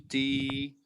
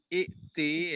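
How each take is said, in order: First: A long i glides straight into the t. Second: A glottal stop is heard before the t. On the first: This is the form used when starting the reading here. The speaker calls it right. "hamzahnya jadi ya" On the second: This is the form used when joined to the preceding word. The speaker calls it wrong. "itu bukan lagi ikti"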